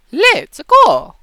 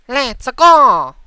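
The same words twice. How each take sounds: First: Very high, very loud game-hero shout; Mario. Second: Loud, nasally, raised cartoon shout; Luigi. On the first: Voice coach showing the higher step, loud Mario voice. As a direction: launch it up into a high cartoon cheer. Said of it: "go to Mario". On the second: Voice coach showing the nasal step, loud Luigi voice. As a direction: push it high through the nose. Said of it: "you can hear the nasal". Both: Shown as a demonstration.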